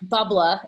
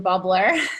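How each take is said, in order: First: It is said in a Boston accent. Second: It is said in a plain, neutral accent.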